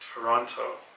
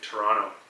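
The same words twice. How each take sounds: First: The last T is clearly pronounced. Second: The last T is left out.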